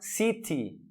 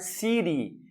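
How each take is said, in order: First: The middle consonant is a clear T sound. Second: The middle consonant sounds like a soft D. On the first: The speaker calls it wrong. "Nós não vamos falar city" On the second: The speaker calls it right. "nós vamos falar city, é um som de D"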